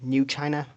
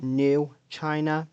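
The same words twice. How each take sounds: First: The name is run together as one word. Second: The name is said as two separate words. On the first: It is a single new name, unrelated to old China. The speaker calls it right. "That is one word" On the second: It means a new version of China. The speaker calls it wrong.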